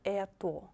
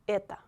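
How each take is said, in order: First: The final vowel sounds like oh. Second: The final vowel sounds like ah. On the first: The speaker calls it wrong. "Not это" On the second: The speaker calls it right. "It will be это. Because O is not stressed"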